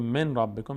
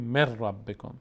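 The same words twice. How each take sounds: First: من ربکم with a clear n before the r; unmerged nun. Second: مر ربکم run together with a long doubled r; merged idgham. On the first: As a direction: keep من and ربکم apart, nun sounded. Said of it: "به جای که بگیم من ربکم". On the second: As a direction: drop the n, hold the r in مر ربکم. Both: Shown as a demonstration.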